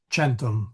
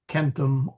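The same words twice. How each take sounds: First: The word begins with a ch sound. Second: The word begins with a k sound. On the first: "or it is soft, centum, like a C H" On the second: "It is either hard"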